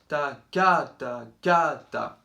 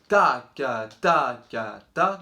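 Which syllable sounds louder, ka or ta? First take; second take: ka; ta. First: The ka syllables are louder than the ta. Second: The ta syllables are louder than the ka. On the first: "faire le ka plus fort que le ta" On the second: "certains d'entre vous peuvent faire"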